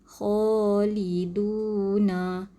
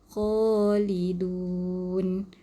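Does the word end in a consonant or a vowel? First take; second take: vowel; consonant. First: The word ends with an added final vowel. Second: The word ends on a stopped final consonant. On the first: The reading continues into what follows. The speaker calls it wrong. "Kita tak baca Khaliduna" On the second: The reading stops at the end of the word. The speaker calls it right. "Kita baca wakaf, berhenti"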